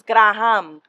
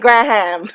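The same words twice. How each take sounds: First: The name is pronounced the Spanish way. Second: The name is pronounced the English way. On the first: "in Spanish it's Graham" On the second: "in English we just say Graham"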